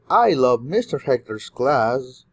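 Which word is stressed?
Hector's. The word Hector's carries the main stress. This class is loved above other classes. "you love a lot of classes, but especially mister Hector's class"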